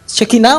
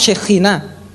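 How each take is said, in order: First: The middle consonant is a hard k sound. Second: The middle consonant is a rasping kh sound. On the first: "se puede pronunciar como Kaf" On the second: "o como Jaf"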